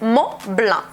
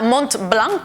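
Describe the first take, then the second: First: The T of Mont is silent. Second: The T of Mont is pronounced. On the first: The speaker calls it right. "la T que es muda, no se escucha" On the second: The speaker calls it wrong. "Muchas veces voy a escuchar Mont-Blanc"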